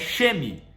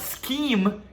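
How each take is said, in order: First: The word begins with an sh sound. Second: The word begins with an sk sound. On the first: This is how a reader guesses it from the text. The speaker calls it wrong. "no texto você vai ler, ah, é sheme" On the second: This is how it is said in audio. The speaker calls it right. "quando fala scheme ... S K E A M"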